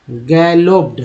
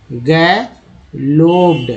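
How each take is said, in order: First: Said in the usual way. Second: गैलोप्ड drawn out slowly, each syllable apart; teacher slowly sounding out गैलोप्ड. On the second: Shown as a demonstration. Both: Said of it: "ED बोलते हैं तो गैलोप्ड हो गया".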